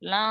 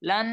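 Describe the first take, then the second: First: The final n is only a nasalized vowel. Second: The final n is pronounced as a full n. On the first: The speaker calls it right. "লা এরকম হবে। ... অনুস্বারের মতো উচ্চারণ করে" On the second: The speaker calls it wrong. "লান এরকম হবে না"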